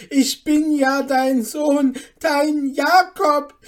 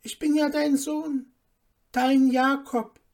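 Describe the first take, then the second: First: High, very loud scornful quoting; outraged mocking shout. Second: High, earnest appeal; pleading. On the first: Mother quoting the impostor to neighbours, outraged mocking shout. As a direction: throw their words back in outrage. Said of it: "rief Hanne ihrer Nachbarin zu". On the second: Son begging his mother to know him, pleading. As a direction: plead to be recognised. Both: A narrator's reading.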